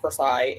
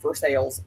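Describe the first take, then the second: First: It is pronounced like the French palace name. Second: It is pronounced the local Ohio way. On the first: It is the usual name of the palace. The speaker calls it wrong. "not Versailles" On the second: It refers to the town in Ohio. The speaker calls it right. "it's pronounced here as Versailles. You're going to Versailles"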